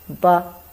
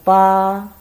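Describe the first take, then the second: First: It is said with the light neutral tone. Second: It is said with the first tone. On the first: "without tongue, we pronounce as ba. It's very light" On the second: "first tongue"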